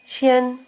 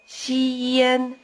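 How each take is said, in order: First: The syllable is said quickly as one. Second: The syllable is stretched out slowly. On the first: "and then speed it up" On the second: "stretch out the first syllable"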